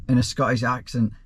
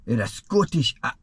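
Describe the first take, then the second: First: Said in the usual way. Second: Put-on a brief, abandoned try at a Scottish accent; half-hearted Scottish accent. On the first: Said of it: "apparently I'm supposed to say that in Scottish". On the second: Asked by a viewer to read the question, a half-hearted Scottish accent. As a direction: start the line in a Scottish accent, then give up. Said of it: "supposed to say that in Scottish".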